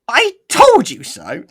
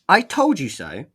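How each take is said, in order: First: It is said in a funny put-on voice. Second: It is said in a plain normal voice.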